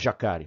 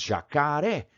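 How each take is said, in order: First: The stress is on the middle syllable. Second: The stress is on the final syllable. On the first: The speaker calls it wrong. "ninguém fala jacare" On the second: The speaker calls it right. "nós falamos jacaré"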